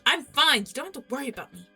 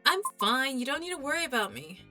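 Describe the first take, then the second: First: It is said in a sharp, irritated tone. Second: It is said in a gentle, calm tone.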